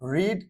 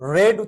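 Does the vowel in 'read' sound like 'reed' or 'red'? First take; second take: reed; red. First: The vowel sounds like the one in 'reed'. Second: The vowel sounds like the one in 'red'. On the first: The speaker calls it wrong. "রিড I mean রেড" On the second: The speaker calls it right. "রেড উচ্চারণ spelling রিডের মতোই"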